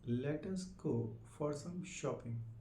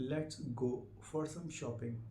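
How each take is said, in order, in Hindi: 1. 'Let' और 'us' दो शब्दों की तरह बोले जाते हैं। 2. 'Let us' एक सिलेबल में कॉन्ट्रैक्ट होता है। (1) "ये अलग अलग करके" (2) "लेट्स भी बोल सकते हो आपको जल्दी में"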